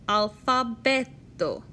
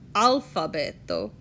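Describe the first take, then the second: First: The stress is on the next-to-last syllable. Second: The stress is on another syllable. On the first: The speaker calls it right. "the emphasis of a word always falls on the next to last syllable" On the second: The speaker calls it wrong. "not alfabeto"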